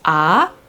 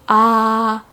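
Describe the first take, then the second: First: The pitch rises steadily from low to high. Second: The pitch stays level and high throughout. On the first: "you're kind of like going up the scale" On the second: "tone number one is also called a flat tone"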